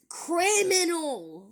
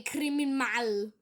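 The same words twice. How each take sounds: First: CRIMINAL slow, high and loud; corrected word. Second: CRIMINAL sounded out wrongly, syllable by syllable; misspelling read out. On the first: Shown as a demonstration. Vlogger correcting a commenter's spelling, stressing "criminal" slowly. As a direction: stretch "criminal" out as a pointed correction. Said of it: "not spell". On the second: Acted. Boy reading a hater's misspelt reply, sounding out "criminal" wrongly.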